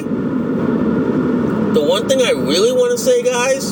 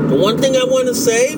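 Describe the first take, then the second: First: Slower, drawn-out emphasis on thing; slow emphatic restart. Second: Said in the usual way. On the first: Shown as a demonstration. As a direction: lean in and stretch it out. Vlogger restarts his opening line.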